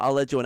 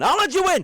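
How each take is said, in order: First: Said in the usual way. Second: High, loud sarcastic shout. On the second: Pretend. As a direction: yell it out in mock outrage. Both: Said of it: "Pull a player aside and say".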